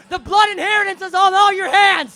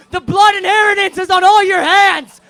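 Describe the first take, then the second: First: High, loud shout hammered home; screamed again. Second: High, loud shouted blame; screamed accusation. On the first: Singer repeating his blame to the crowd, shouted. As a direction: shout it even harder. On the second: Singer screaming blame at the audience, shouted. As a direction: hurl it at the crowd. Repeated ranted line. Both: Acted.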